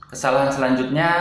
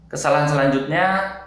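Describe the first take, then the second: The two takes are said the same way.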